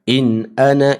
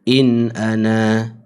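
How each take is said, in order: First: The final vowel is short and runs on. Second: The final vowel is lengthened before a stop. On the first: The reading continues without stopping. "kalau sambung bacaan wasal" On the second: The reader stops on this word. "kalau berhenti in ana, kita akan wajib baca wujudkan alif tadi. Baca dengan dua harakat"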